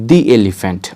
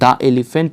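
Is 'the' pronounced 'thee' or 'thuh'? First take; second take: thee; thuh. First: 'The' is said with a long 'thee' vowel. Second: 'The' is said with a short 'thuh' vowel. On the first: The speaker calls it right. "আপনারা কি উচ্চারণ করবেন দি elephant" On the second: The speaker calls it wrong. "এটা কিন্তু দ্য elephant হবে না"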